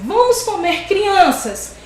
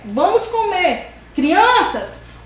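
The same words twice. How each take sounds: First: It is said without a pause before crianças. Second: There is a pause before crianças.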